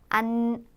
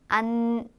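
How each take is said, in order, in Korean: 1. 음절을 콧소리 울림을 강하게 넣어 발음합니다. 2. 음절을 콧소리 울림을 강하게 넣어 발음합니다.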